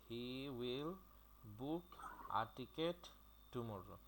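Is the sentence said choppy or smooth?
choppy. Each word is separated by short gaps. The speaker calls it wrong. "প্রত্যেকটা word ভেঙে ভেঙে বলতে হয়"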